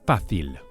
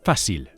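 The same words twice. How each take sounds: First: The c is pronounced like a th. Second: The c is pronounced like an s. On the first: "The way to say easy is fácil" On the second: "Or in Latin America"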